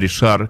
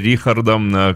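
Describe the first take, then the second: First: The name begins with a 'sh' sound. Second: The name begins with a 'kh' sound. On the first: This is how French speakers say the name. "франкоговорящие люди говорят, что это Ришар" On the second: This is how German speakers say the name. "германоязычные — Рихардом"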